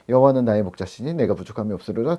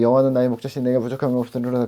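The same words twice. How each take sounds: First: It is read aloud in a plain way. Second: It is skimmed through quickly without expression.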